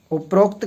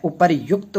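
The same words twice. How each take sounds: First: उपरोक्त with a long O, "uparokt"; उपरोक्त said as "upa-rokt"; wrong O form. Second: उपर्युक्त with "ryukt" at the end; उपर्युक्त said as "upar-yukt"; correct "yukt" form. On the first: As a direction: join पर and उक्त into "rokt" in उपरोक्त. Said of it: "कोई शब्द ही नहीं होता". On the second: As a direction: sound a Y and short U in उपर्युक्त. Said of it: "उपर्युक्त होता है". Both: Shown as a demonstration.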